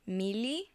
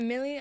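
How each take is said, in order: First: The name is said with a Spanish accent. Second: The name is said with a plain English accent. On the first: "Now it sounds completely Spanish" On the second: "it doesn't sound like a Spanish name"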